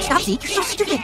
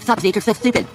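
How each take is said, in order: First: The s sounds are pronounced clearly. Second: The s sounds are pronounced with a lisp. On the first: This is what the speaker meant to say. "I said" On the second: This is how it actually sounded back then. "But I had a lisp, so it came out"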